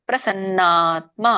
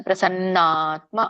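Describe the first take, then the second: Both takes have the same delivery.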